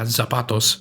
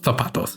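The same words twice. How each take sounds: First: The z is pronounced like an s. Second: The z is pronounced like a th.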